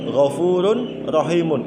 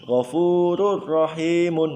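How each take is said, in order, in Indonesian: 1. Bunyi n diucapkan jelas sebelum r. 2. Bunyi n melebur menjadi bunyi r yang dobel. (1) "Itu lafadznya" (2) "diidghamkan. Tanwinnya hilang. Langsung masuk ke ro"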